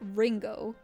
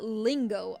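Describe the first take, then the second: First: The word starts with an English R. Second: The word starts with a clear L. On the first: "So it's not Ringo. That's a R" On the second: "it's not lingo either because with the L"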